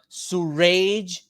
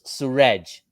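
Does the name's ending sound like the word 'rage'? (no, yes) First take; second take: yes; no. First: The ending sounds like the word rage. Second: The ending does not sound like rage. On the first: The speaker calls it wrong. "as if I have an anger problem" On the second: The speaker calls it right. "it's Suraj, not surgery"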